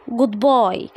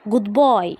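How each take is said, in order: Both takes have the same delivery.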